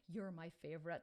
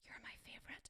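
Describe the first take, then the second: First: Said in the usual way. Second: Put-on soft secret whisper to her kids; mother whispering to her child, unvoiced. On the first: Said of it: "He used to say". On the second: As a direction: breathe it like a secret. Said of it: "I go".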